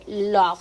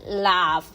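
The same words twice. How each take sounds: First: The vowel is a pure o sound. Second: The vowel sounds between a and o. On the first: The speaker calls it wrong. "no se lee love" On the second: The speaker calls it right. "se lee love. La O es como una A entre una A y una O"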